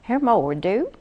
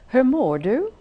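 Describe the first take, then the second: First: It is said in a southern Skåne accent. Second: It is said in a standard Swedish accent. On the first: "Those from Skåne would have a southern accent" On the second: "if I were to say"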